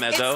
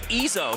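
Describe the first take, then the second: First: The first vowel sounds like the one in 'bed'. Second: The first vowel sounds like the one in 'bit'. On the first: This is how most people say the name. The speaker calls it wrong. "Everybody calls him Ezzo. I called him Ezzo" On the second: This is how the person himself says the name. The speaker calls it right. "He told me it's Izzo"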